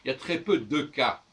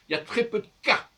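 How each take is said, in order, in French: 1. Le e instable s'entend clairement. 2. Le e instable est supprimé. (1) "je ne devrais pas dire ça comme ça" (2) "On ne devrait même pas entendre ce E"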